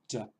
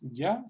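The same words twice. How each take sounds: First: It starts with an English j sound. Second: It starts with a soft Spanish y sound. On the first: The speaker calls it right. "sino ya ... equivalente a una J en inglés" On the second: The speaker calls it wrong. "como si fuera una Y en español. No es ya"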